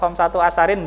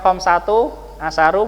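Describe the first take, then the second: First: The second word ends in '-in'. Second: Both words end in a short 'u' vowel. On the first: "atau khamsatu asarin enggak ya" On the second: "Bukan khamsatu asaru bukan"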